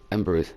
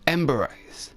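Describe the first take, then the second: First: The name ends like the word 'memories'. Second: The name ends with a separate word 'eyes'. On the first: "like memories" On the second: "Is that really how you say that name?"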